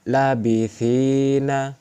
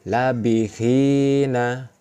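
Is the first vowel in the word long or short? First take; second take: long; short. First: The first vowel is held long. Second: The first vowel is short. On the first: "Ini dibaca panjang" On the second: "Tidak dibaca panjang"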